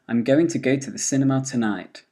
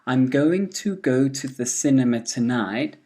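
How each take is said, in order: First: The small words are reduced to weak vowels. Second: The small words keep their full vowels.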